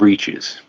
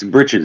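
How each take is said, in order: First: The first vowel is a long 'ee' sound. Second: The first vowel is a short 'i' sound. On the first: The speaker calls it wrong. "not breeches" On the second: The speaker calls it right. "It's britches"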